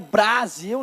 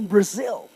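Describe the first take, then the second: First: The first vowel is a clear open 'a'. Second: The first vowel is reduced, with no 'a' sound. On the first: The speaker calls it wrong. "Não é Brasil" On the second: The speaker calls it right. "Mas não tem som do A"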